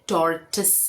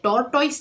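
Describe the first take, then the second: First: The word ends with a 'tis' sound. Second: The word ends with a 'toys' sound. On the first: The speaker calls it right. "टॉर और टिस" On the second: The speaker calls it wrong. "ये टोरटॉइस नहीं है"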